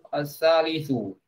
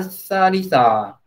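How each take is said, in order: First: The word ends with a u vowel. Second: The word ends with an a vowel. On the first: The speaker calls it right. "Yang benar dia masih su" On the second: The speaker calls it wrong. "Di sini katanya asalisa"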